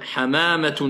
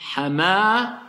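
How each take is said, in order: First: The word ends with the full 'atun' ending. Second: The word ends in 'ah', dropping the ending. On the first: The word is said without stopping on it. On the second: The speaker stops on this word.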